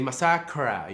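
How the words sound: It is said with an American accent.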